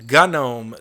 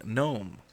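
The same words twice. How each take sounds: First: GNOME as two syllables, "guh-NOME"; gnome with sounded G. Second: GNOME as one syllable, "nome"; gnome with silent G. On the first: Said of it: "you say gnome doesn't mean". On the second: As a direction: drop the G in gnome. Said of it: "I'm wrong for saying". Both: Shown as a demonstration.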